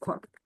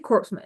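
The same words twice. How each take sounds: First: The p and s sounds are silent. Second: The p and s sounds are pronounced. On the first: The speaker calls it right. "it's corpsman" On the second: The speaker calls it wrong. "Don't say corpsman"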